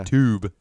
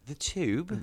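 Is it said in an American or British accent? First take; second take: American; British. First: It is said in a plain American accent. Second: It is said in a put-on British accent.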